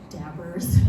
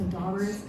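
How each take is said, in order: First: The first vowel sounds like the vowel in 'dab'. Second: The first vowel sounds like the vowel in 'daw'. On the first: This is how some other people say it. "some of you say dabbers" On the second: This is the original way of saying it. "the original uh, pronunciation"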